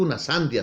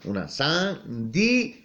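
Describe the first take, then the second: First: The i and a join in one syllable. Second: The i and a fall in separate syllables. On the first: The speaker calls it wrong. "no digo una sandia" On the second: The speaker calls it right. "sino una sandía, está separado"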